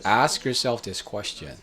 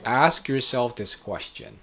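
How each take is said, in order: Both takes have the same delivery.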